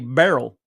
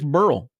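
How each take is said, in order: First: The name is said as two syllables. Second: The name is said as one syllable. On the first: The speaker calls it wrong. "they like to say barrel" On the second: The speaker calls it right. "I think it's Burl"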